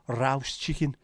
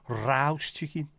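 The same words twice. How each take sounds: First: It is said in the speaker's ordinary accent. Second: It is said in a put-on Birmingham accent.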